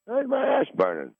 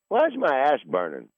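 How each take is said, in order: First: The same question jumps much higher; higher repeat. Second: Said in the usual way. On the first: Retold or imitated. Waking at night, he asks again, much higher. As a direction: ask again, pitched way up in alarm.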